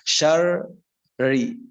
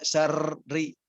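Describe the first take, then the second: First: The doubled r is held without a trill. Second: The doubled r is rolled with a trill. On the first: The speaker calls it right. "justru disembunyikan" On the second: The speaker calls it wrong. "tidak syarri gitu"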